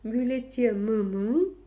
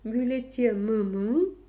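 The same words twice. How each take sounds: First: The vowel is a hard, back 'y' sound. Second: The vowel is a hard, back 'y' sound.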